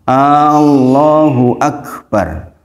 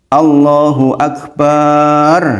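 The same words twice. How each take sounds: First: The very first vowel 'a' is stretched long. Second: The final syllable 'bar' is stretched long. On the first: It sounds like asking who God is. "Allah a a a-nya panjang" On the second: The last word comes to mean a drum. "barnya panjang"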